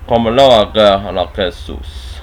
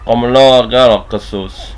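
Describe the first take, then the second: First: The words are said with less slurring. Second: The words are slurred more together.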